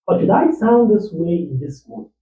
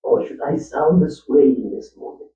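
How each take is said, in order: First: Lifted pitch, question rising at the end; higher, rising voice. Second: Said in the usual way. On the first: Shown as a demonstration. Actor trying out a higher voice for a movie role. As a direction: try the line up high, asking. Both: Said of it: "Is this how I want to sound".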